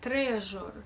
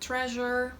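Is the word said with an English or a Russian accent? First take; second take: Russian; English. First: It has a harder, harsher Russian zh sound. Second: It has a soft English zh sound. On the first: "it's a bit harder, harsher even" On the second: "A very similar sound exists in the English language"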